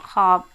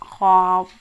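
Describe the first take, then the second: First: ख्वाब said as khaab, the w left silent; ख्वाब बिना व की आवाज़ के; silent w in khwab. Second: ख्वाब said khwaab, w sounded out, a bit louder; ख्वाब व बोलकर, गलत उच्चारण; wrong khwab with w. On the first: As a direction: say ख्वाब as xaab with no w sound. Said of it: "इस तरह से पढ़ा जा रहा है". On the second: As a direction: pronounce the w in ख्वाब as a wrong example. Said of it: "ख्वाब इस तरह से नहीं पढ़ा जा रहा". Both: Shown as a demonstration.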